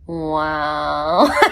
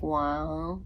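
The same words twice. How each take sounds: First: The word is drawn out long and flat. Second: The word is said short and flat.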